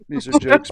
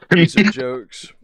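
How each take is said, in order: First: Much higher, insistent repeat; pitched-up disclaimer. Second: Said in the usual way. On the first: Shown as a demonstration. A streamer repeats to the viewers that these are jokes, pitched high. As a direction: push it up high to make sure they get it.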